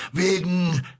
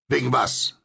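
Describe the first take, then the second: First: High, drawn word left hanging; faltering, breaking off. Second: Prompt, raised-pitch comeback; quick question. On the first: Stranger starts to explain his fear, breaking off. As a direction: begin high, then stop short. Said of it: "setzte die Stimme an und hielt sogleich wieder inne". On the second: Narrator presses the stranger for his reason, quick question. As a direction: come straight back with the question. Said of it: "fragte ich rasch". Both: A narrator's reading.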